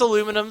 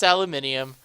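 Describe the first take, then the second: First: It is said with four syllables, ending -num. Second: It is said with five syllables, ending -nium.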